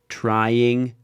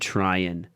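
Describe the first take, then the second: First: The ending is pronounced in full. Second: The ending is reduced and shortened.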